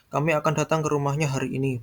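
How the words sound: The stress falls on the word rumahnya. It is this house, not another house. "bukan datang ke rumah yang lain"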